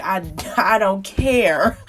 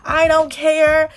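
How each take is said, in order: First: Said in the usual way. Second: I don't care sung out high and loud, slowly; louder carefree I don't care. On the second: Shown as a demonstration. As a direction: throw out I don't care with sassy defiance.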